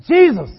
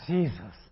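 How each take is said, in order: First: It is cried out in sudden alarm. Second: It is said with annoyed exasperation.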